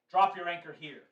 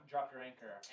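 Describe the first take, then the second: First: Elven soldier calling down, louder and higher; shouting down. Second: Said in the usual way. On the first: Acted. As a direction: call it down to the ship as an order. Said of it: "a voice shouting down from you".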